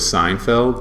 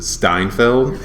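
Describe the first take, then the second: First: The name starts with a plain s sound. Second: The name starts with an st sound.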